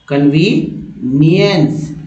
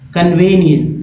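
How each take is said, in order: First: The second vowel is a long 'ee' sound. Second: The second vowel is a short 'eh' sound. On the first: The speaker calls it right. "लेकिन उच्चारण शुद्ध होगा कन्वीनियंस" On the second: The speaker calls it wrong. "कुछ लोग कन्वेनियंस पढ़ देते हैं"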